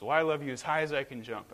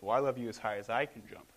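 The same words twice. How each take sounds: First: Lightly voiced eager little bunny, higher; a hint of a child bunny trying to win. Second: Lightly voiced dad, close to normal pitch; a hint of a dad playfully topping his child; daddy bunny. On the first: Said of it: "the little bunny says". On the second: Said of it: "And the dad says".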